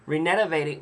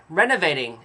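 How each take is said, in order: First: "Renovating" garbled as "ree-NET-a-vating"; stumbled pronunciation. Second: Said in the usual way. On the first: Real, not acted. Speaker fumbling a word in a retold question, "Renovating" stumbled as "ree-net-a-vating". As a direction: trip over "Renovating", adding an extra syllable. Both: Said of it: "oh, can't say the word".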